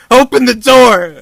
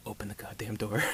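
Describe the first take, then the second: First: "Open the door" screamed, much higher and louder, slow; panicked scream. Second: Tense hush. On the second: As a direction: plead under your breath, "Open the goddamn door.". Doctor panics quietly. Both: Retold or imitated.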